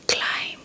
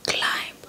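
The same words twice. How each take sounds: The two takes are said the same way.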